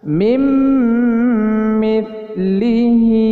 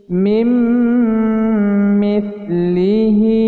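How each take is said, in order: No difference in how they are said.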